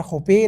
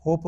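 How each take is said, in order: First: होपे with the final E sounded as "ay"; wrong final-E reading. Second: होप as one syllable with long O; silent final E. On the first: Teacher showing how not to read it, final E sounded. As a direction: say होपे in two syllables, HO-PAY. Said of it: "या होपे नहीं पढ़ते हैं". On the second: Teacher giving the correct reading, silent final E. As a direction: end होप on the P, no vowel after. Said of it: "होप बोलते हैं". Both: Shown as a demonstration.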